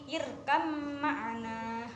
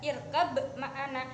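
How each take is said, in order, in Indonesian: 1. Kata pertama diakhiri dengan bunyi m. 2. Kata pertama diakhiri dengan bunyi b. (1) "bukan pakai ba, tapi irkam ma'ana" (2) "ini kan pakai ba ya"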